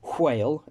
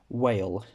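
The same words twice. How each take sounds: First: It begins with a breathy hw sound. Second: It begins with a plain w sound. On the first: "some English dialects where you pronounce it as whale" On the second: "instead of whale"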